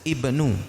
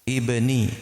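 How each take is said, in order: First: The word ends with an 'u' vowel. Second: The word ends with an 'i' vowel. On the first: The speaker calls it right. "ibnu, bukan ibni" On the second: The speaker calls it wrong. "ana salah ya"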